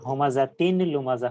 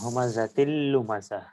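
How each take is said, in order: First: The n sound is pronounced before the l. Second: The n merges into a doubled l sound. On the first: "অথবা হুমাযাতিন লুমাযাহ হইতো" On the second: "নুনকে লামের সাথে মিলিয়ে পড়া হচ্ছে"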